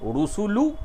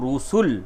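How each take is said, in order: First: The word ends with a short vowel sound. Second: The word ends on the final consonant. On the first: The reciter continues without stopping. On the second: The reciter stops at this word.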